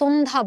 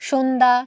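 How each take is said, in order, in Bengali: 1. শব্দটি সাধারণ 's' ধ্বনি দিয়ে শুরু। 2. শব্দটি 'sh' ধ্বনি দিয়ে শুরু। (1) "দন্ত স দিয়ে আমরা কিন্তু সন্ধ্যা বলি না" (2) "খুবই সহজ"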